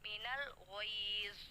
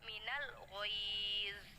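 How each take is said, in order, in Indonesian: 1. Vokal panjang ditahan selama dua harokat. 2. Vokal panjang ditahan selama dua harokat.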